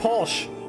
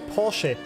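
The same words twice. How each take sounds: First: The word ends without a final vowel sound. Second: The word ends with an audible final vowel. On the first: The speaker calls it wrong. "It's not Porsche" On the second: The speaker calls it right. "There's an E at the end"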